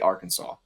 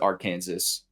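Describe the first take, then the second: First: The ending is not said like Kansas. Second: The ending is said like the word Kansas. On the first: It is how locals say it. The speaker calls it right. "but we for some reason say Arkansas" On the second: It follows the spelling. The speaker calls it wrong. "we don't pronounce it Arkansas because it's literally spelled like A R and then Kansas"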